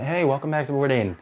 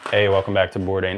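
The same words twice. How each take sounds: First: It is said cheerfully, with a smile. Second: It is said flatly, without enthusiasm.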